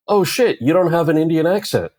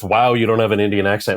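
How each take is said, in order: First: High-pitched, blurted astonishment; acted surprise. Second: Incredulous echo of the greeting, near usual pitch; mock quoted greeting. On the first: Stranger meeting the actor at a party, acted surprise. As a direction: imitate someone caught off guard, pitched up high. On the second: Offended actor echoing a stranger's greeting, mildly mocking. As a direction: throw the greeting back with mild mockery. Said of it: "greeting me with".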